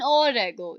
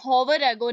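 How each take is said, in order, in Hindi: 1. Hour की शुरुआत स्वर से होती है, h की आवाज़ नहीं। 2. Hour की शुरुआत में h की साफ़ आवाज़ होती है।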